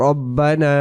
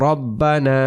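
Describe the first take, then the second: No difference in how they are said.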